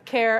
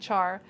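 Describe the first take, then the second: First: It is said like the word care. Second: It is said starting with a ch sound. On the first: "I say care because it's short for character" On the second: "which some people say char"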